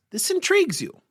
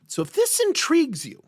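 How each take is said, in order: First: "intrigues" hit hardest, "this" left light; high voice, peak on "intrigues" then fall; stress on intrigues. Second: "this" lifted high and leaned on, falling after; high emphatic "this" opening the pitch; stress on this. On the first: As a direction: lean on the word "intrigues". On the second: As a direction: point at the word "this". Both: Shown as a demonstration.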